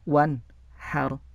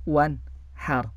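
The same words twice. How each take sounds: No difference in how they are said.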